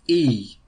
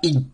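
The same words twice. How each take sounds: First: The airflow passes freely on the sound. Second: The airflow is blocked on the sound. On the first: The speaker calls it right. "Donc on bloque pas l'air quand même" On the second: The speaker calls it wrong. "On dit pas i"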